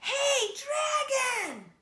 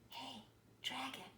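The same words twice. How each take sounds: First: It is shouted very loudly. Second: It is whispered very softly.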